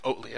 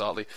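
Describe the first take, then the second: First: Oatley with a long "oh" as in oat; mispronounced name. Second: Oatley with an open "aw" first vowel; corrected name pronunciation. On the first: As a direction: say Oatley as "OHT-lee". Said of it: "I've been pronouncing his name wrong". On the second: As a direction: say Oatley as "AWT-lee". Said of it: "I believe it's Oatley". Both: Shown as a demonstration.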